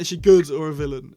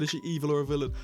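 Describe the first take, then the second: First: GOOD punched louder as a correction; stress on GOOD. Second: Said in the usual way. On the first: Shown as a demonstration. Correcting his own slip about Mrs Flood, stress on "good". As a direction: hit the word "good" hard. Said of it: "I meant". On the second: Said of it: "Hang on, I just said".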